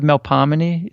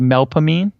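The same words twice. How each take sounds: First: The name gets its standard classical pronunciation. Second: The name gets a mangled local pronunciation. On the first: The speaker calls it right. "instead of Melpomene" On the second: The speaker calls it wrong. "we slaughter almost all of the names"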